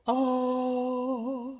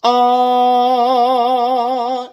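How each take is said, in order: First: Same note, lifted into head voice. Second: Loud sustained chest-voice "Ah". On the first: Coach demonstrating the same note, head version. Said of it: "that same note in the head voice". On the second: Coach demonstrating the same note, chest version. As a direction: hold "Ah" in full chest voice. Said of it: "In the chest". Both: Shown as a demonstration.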